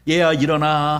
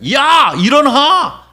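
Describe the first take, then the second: First: It is said in a soft, gentle voice. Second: It is said with the highest, loudest voice.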